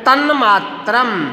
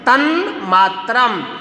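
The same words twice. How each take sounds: First: The first word ends with an n sound. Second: The same.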